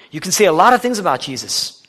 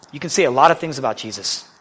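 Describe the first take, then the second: First: Louder, higher preacher's emphasis on lot; emphatic repeat. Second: Said in the usual way. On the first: Shown as a demonstration. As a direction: drive the repeated line home.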